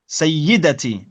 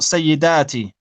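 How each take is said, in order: First: The vowel after the d is short. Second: The vowel after the d is long. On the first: The speaker calls it right. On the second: The speaker calls it wrong.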